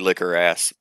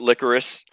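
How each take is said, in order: First: It is split into two words, 'liquor ass'. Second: It is said as one word, 'licorice'. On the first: "it's really liquor ass" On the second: "you can pronounce it licorice"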